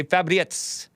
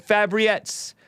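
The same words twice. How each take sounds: First: Fabriettes with a rolled R. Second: Said in the usual way. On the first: Shown as a demonstration. Host showing how he's tempted to say a donor's name, Fabriettes with rolled R. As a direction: roll the R in "Fabriettes" like a Spanish speaker. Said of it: "I roll the, the R". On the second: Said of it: "always tempted to say Fabriettes".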